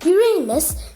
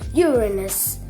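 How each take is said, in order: First: It sounds like 'your anus'. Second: It sounds like 'urine' plus S. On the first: This is the common version that invites a joke. The speaker calls it wrong. "your anus" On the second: This is the version most scientists use. The speaker calls it right. "urine plus S"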